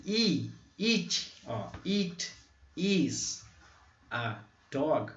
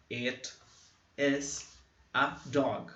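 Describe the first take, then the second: First: Teacher exaggerating the vowel; short vowel demo. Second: It is a dog said slowly; teacher demonstrating the sentence; model sentence. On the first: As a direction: clip the i in it. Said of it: "um som muito assim". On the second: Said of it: "você quer falar". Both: Shown as a demonstration.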